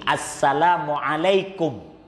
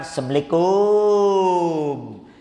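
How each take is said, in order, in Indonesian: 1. Suku kata terakhir kum pendek. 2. Suku kata terakhir kum dipanjangkan. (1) "Jadi salam itu begini" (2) "bukan assalamualaikum. Kalau kita kan kumnya kepanjangan"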